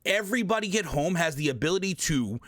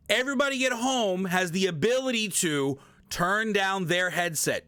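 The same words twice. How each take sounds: First: Said in the usual way. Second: EVERYBODY raised in pitch, line driven home; emphatic stress. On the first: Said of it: "let me stress this real quick". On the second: Real, not acted. Streamer repeating the point to viewers, emphatic stress. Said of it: "I'm gonna stress this real quick".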